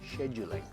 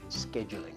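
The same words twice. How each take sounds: First: The word begins with a 'sh' sound. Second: The word begins with a 'sk' sound. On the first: The speaker calls it right. "it's scheduling" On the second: The speaker calls it wrong. "not scheduling"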